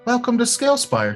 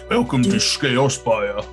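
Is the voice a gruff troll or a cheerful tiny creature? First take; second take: cheerful creature; gruff troll. First: A bright, cheerful small-creature voice is used. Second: A gruff, dull Cockney guard voice is used. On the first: A tiny creature echoes it happily. "says in a cheerful voice" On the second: A grumbling troll says it with reserved sarcasm. "It was like a Cockney British guard, like but like a dumb British guard"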